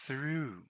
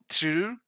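First: The word begins with a clear 'th' sound. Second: The word begins with a plain 't' sound. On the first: The speaker calls it right. "So start with the tongue in between your teeth, then pronounce the word" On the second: The speaker calls it wrong. "sometimes people pronounce this like through, through, or true, true. See, it's not a clear sound"

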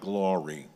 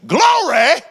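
First: It is said plainly and flatly. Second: It is said exuberantly, drawn out at the end.

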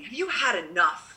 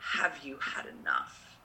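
First: It sounds like a disappointed, scolding father. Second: It sounds tender and broken-hearted.

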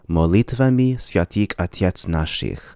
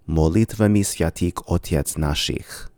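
First: The first vowel of otets sounds like a. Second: The first vowel of otets sounds like o. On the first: "a Russian will probably pronounce this formula" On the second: "a Bulgarian will likely pronounce this as"

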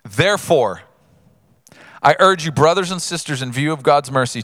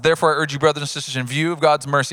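First: The passage is read at a slower pace. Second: The passage is read very quickly. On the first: The speaker calls it right. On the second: The speaker calls it wrong.

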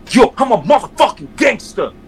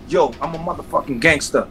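First: It is said forcefully, with strong impact. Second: It is said flatly, with little force.

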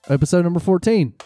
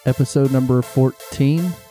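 First: It is said in a confident way. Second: It is said in an unsure way.

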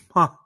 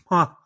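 First: The syllable is nasal, with air escaping. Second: The syllable is nasal, with air escaping.

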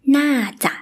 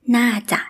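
No difference in how they are said.

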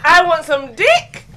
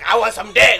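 First: It is said as a question. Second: It is said eagerly, as an exclamation.

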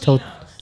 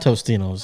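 First: No s sound comes before the middle t. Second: An s sound comes before the middle t. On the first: The speaker calls it right. "It's Totino's" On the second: The speaker calls it wrong. "It's not Tostino's"

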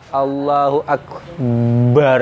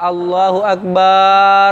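First: The b in akbar is doubled and heavy. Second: The vowel after b in akbar is lengthened. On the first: "mentasydidkan ba, memberatkan ba" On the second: "memanjangkan alif pada ba"

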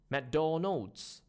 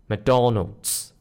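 First: The stress is on the last syllable. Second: The stress is on the middle syllable. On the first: The speaker calls it wrong. "versus the Mangish version" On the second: The speaker calls it right. "Try to stress on the middle one instead"

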